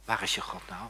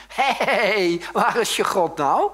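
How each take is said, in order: First: Low, soft taunting question; hushed, lowered challenge; quiet taunt. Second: High, loud drawn-out yell; slow, jeering bellow; Goliath's taunting shout. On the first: Retold or imitated. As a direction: needle them quietly. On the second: Acted. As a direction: holler a taunt at the enemy. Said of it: "loopt hij te roepen tegen hun".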